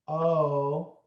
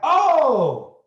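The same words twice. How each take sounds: First: It sounds flat and underwhelmed. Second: It sounds surprised and amazed.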